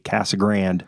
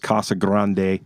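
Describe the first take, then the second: First: It is pronounced the way residents say it. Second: It is pronounced the way outsiders say it. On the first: The speaker is from the area. The speaker calls it right. "They say Casa Grande" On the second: The speaker is not from the area. The speaker calls it wrong. "Nobody says Casa Grande. ... The only people who say Casa Grande are people from out of town"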